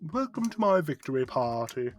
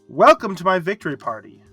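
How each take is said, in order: First: It is said in a put-on British accent. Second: It is read in a plain, everyday accent.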